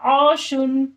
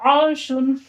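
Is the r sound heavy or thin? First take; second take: heavy; heavy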